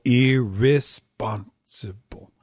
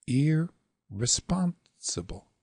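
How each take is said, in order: First: "irresponsible" with drawn-out, weighty first syllables; "irresponsible" slow, long-long-long at the start; all long opening. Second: "irresponsible" with held "ir", quick "re", long "spon"; "irresponsible" opening long-short-long. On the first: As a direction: stretch ir and re equally in irresponsible. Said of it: "You could go". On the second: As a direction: hold the first syllable of irresponsible, skip over the second. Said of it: "long, short, long". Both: Shown as a demonstration.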